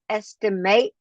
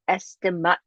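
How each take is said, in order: First: It is pronounced as the verb form. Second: It is pronounced as the noun form. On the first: It names the action of judging roughly. "The verb is estimate" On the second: It names a rough calculation. "The noun is estimate. The pronunciation is different"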